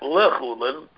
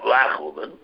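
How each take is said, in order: First: The first vowel is a short reduced 'eh'. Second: The first vowel is an open 'ah'. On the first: The speaker calls it wrong. "He's pronounced it not lechulin" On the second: The speaker calls it right. "but lachulin. The Lamed has a patach on it"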